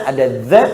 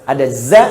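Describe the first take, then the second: The two takes are said the same way.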